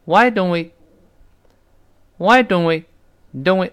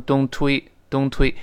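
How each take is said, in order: First: "don't we" with no t, gliding straight into we; dropped t. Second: "don't we" with the t fully sounded; over-careful wrong reading. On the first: Teacher has class feel the sound, dropped t. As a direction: skip the t in "don't" and link it to "we". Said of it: "那个t干脆读快了就没了". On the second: Teacher shows what it isn't, fully sounded t. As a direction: pronounce every sound of "don't", t released before "we". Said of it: "这里它没有读成". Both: Shown as a demonstration.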